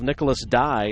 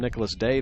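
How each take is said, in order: First: The surname rhymes with 'die'. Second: The surname rhymes with 'day'. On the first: The speaker calls it right. "the Dye family" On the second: The speaker calls it wrong. "I called him Nicholas Day the entire season"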